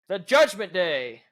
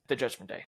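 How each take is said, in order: First: It is said in a loud, excited tone. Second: It is said in a flat, unexcited tone.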